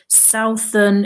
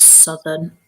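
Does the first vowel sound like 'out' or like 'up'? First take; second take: like out; like up. First: The first vowel sounds like the one in 'out'. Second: The first vowel is a short 'uh' sound. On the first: The speaker calls it wrong. "southern is difficult to say" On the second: The speaker calls it right. "so it becomes southern"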